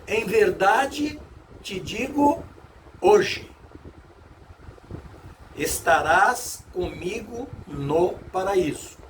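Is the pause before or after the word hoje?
after. The pause comes after the word hoje.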